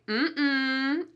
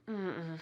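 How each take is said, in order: First: It is said in a firm, authoritative way. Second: It is said in a weary, tired way. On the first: A child is being told not to do something. "with a slightly different intonation, ... an authoritarian feel to it" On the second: The speaker is too tired to go out. "you're using that sound to express your tiredness"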